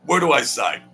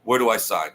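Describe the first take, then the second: First: Grabbing the pen, Where do I sign? said eagerly; eager, louder. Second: Said in the usual way. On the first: Retold or imitated. To the buyer, an eager higher louder Where do I sign. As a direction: jump at the offer, higher and louder. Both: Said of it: "where do I sign repeated".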